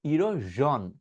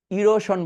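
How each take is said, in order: First: ইরোজন as "iro-zhon", buzzed; correct ZH pronunciation. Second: ইরোশন as "iro-shon", with sh; voiceless sh in ইরোশন; old SH pronunciation. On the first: Teacher modelling for learners, zh in ইরোজন. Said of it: "ইরোশনটাকে কি বলবো". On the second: Teacher recalling learners' habit, sh in ইরোশন. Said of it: "ইরোশন বলতাম". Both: Shown as a demonstration.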